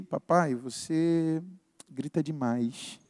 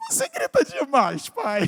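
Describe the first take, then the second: First: Soft, slow and lower, careful not to hurt; delicate, careful. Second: High mocking daughter breaking into laughter; ironic, laughing. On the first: Retold or imitated. Daughter gently telling dad he yells, delicate and careful. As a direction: say it gently, easing into the hard truth. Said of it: "Mais delicada, né? Sem querer me ferir". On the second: Daughter mocking dad about his yelling, ironic and laughing. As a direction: tease him in a high voice, then crack up. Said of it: "o lado irônico".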